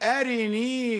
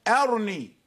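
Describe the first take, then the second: First: The vowel after the r is fully pronounced. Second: There is no vowel after the r. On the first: "نحن نكمل الكسرة ونقول أرني" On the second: "والوجه وجه السكون موجود أيضا"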